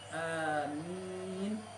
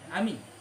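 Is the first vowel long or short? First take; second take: long; short. First: The first vowel is held long. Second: The first vowel is cut short. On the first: It asks for the prayer to be answered. The speaker calls it right. "A panjang amin maknanya apa istajib" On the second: It means safe. The speaker calls it wrong. "apa pendek amin maknanya aman ya"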